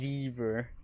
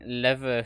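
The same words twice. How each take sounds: First: The first vowel is long, like 'lee'. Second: The first vowel is short, like 'leh'. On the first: The speaker calls it wrong. "Like who's Lee? Oh, and why is he leaving her?" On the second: The speaker calls it right. "I think lever sounds better"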